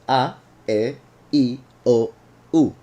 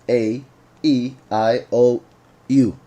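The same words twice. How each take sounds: First: Each vowel is one short pure sound. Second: Each vowel glides into a two-part sound. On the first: "in Spanish, they are a little bit simpler" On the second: "In English, the vowels are pronounced"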